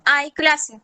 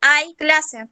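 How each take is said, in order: First: Flat declarative "Hay clase" with a falling end on "clase"; statement intonation. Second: "Hay clase" exclaimed, "hay" pushed up and the tune falling after it; excited announcement: "hay" lifted, then falling; exclamatory intonation. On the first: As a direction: state "Hay clase" as a plain fact, tune dropping at the end. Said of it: "Entonación enunciativa". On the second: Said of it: "Entonación exclamativa". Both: Shown as a demonstration.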